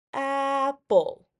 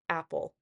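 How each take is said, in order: First: "Apple" with AP high and loud, then dropping; stress on first syllable. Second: Said in the usual way. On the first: Shown as a demonstration. Teacher demonstrating pitch over two syllables, stressed first syllable of "Apple". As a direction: punch the start of "Apple" high, let the end fall. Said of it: "notice the pitch of my voice". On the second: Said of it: "Let's go back to the word apple".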